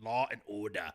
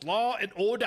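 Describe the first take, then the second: First: It is said in an Emperor Palpatine voice. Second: It is said in his normal voice.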